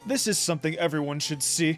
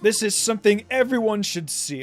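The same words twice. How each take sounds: First: It is said in a Duke Tanis voice. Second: It is said in his natural voice.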